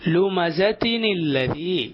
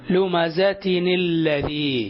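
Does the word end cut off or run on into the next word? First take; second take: run on; run on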